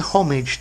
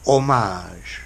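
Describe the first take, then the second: First: It is said with an English pronunciation. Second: It is said with a French pronunciation. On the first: It means an act of public respect. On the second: It means an artwork honouring another artist.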